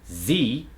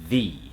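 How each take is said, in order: First: The word starts with a z sound. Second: The word starts with a th sound. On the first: The speaker calls it wrong. "a lot of foreign accents make the Z sound instead of the th sound" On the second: The speaker calls it right. "We want that tip of the tongue to go between the teeth"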